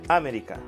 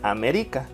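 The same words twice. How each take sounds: First: The stress is on the first syllable. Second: The stress is on the third syllable. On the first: "Si fuera en A" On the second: "Si fuera en ri"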